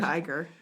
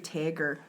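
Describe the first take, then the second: First: The first vowel sounds like 'eye'. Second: The first vowel sounds like 'ay'. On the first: The speaker calls it right. "It's an I" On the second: The speaker calls it wrong. "Who says Tager?"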